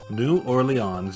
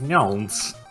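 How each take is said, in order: First: The name is said in its full form. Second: The name is condensed as far as possible.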